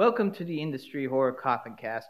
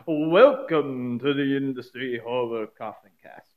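First: It is said in his normal speaking voice. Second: It is said in a put-on character voice. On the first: "I'm not going to do the voice" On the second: "but oh, what the heck"

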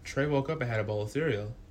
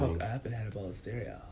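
First: It is said in the speaker's ordinary voice. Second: It is said in an imitated narrator's voice.

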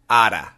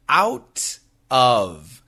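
First: The words blend fast into one short word. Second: Both words are said fully and separately. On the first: "when Americans say this really fast, we pronounce it like this" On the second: "Out of. O-U-T-O-F"

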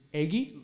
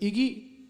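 First: The first vowel sounds like 'egg'. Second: The first vowel does not sound like 'egg'. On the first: The speaker calls it right. "like egg" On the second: The speaker calls it wrong. "instead of Iggy"

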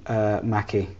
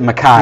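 First: The name is said in a non-Scottish way. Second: The name is said in the Scottish way. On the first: This is how the name's owner says it. "He pronounces his name Mackie" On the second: This is how the speaker would say it. "I would pronounce it Mackay. Like the Scottish way of doing it"

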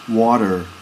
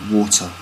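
First: The middle consonant is a soft d-like sound. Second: The middle consonant is a crisp t sound. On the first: "In America they would pronounce that with a D sound" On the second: "in Britain we pronounce the T or T like a T sound"

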